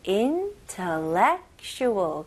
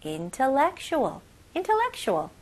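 First: Intellectual said slowly in a steady beat; rhythmic. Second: Faster. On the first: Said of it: "리듬을 잘 잡아가지고". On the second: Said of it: "좀 더 빨리". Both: Shown as a demonstration.

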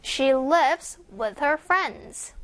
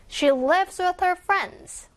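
First: Slow, careful repeat; slow read. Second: A bit quicker and higher; faster read. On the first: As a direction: keep it slow and clear. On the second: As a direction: speed it up a little. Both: Shown as a demonstration. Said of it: "좀 더 빠르게".

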